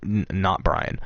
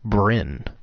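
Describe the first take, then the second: First: The name sounds like Brian. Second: The name sounds like Bryn. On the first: The speaker calls it wrong. "not uh, not Brian. It looks like Brian" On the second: The speaker calls it right. "I'm sorry, Bryn"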